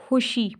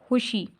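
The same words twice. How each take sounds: Both takes have the same delivery.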